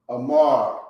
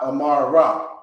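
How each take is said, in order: First: The word ends on the consonant r. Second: The word ends with a full final vowel. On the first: The speaker calls it right. "the ra is going to kind of blend into the end of it" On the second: The speaker calls it wrong. "it's not going to be amara"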